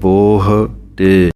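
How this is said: The two parts are separated by a short gap. The speaker calls it right. "ਅਲੱਗ ਅਲੱਗ ਬੋਲਣਾ ਹੈ, ਬੋਹ ਸਪੇਸ ਤੇ ਵਿੱਚ ਥੋੜ੍ਹਾ ਗੈਪ ਦੇ ਕਰਕੇ"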